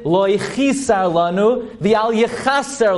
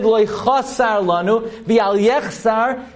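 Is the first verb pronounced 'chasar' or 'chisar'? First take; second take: chisar; chasar. First: The verbs are said as chisar and yechaser. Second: The verbs are said as chasar and yechsar. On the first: It follows the rules of grammar. The speaker calls it right. "according to the laws of Hebrew grammar" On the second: It yields a specific numerical value. The speaker calls it wrong. "we distort the correct pronunciation"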